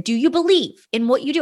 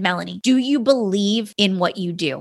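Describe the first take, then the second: First: Believe lifted higher, rising question; stress on believe. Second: Said in the usual way. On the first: Retold or imitated. Husband presses his wife again, stress on believe. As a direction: push on the word believe, asking again. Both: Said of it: "And he said".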